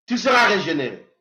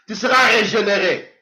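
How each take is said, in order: Both takes have the same delivery.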